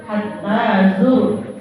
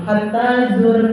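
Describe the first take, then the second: First: Slow "hatta zur" with heavy r; correct thick r. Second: "hatta zur" with a light final r; wrong thin r. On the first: Teacher showing correct reading, slow tafkhim. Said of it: "Nah, tafkhim". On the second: Teacher showing the mistake, thin r. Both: Shown as a demonstration.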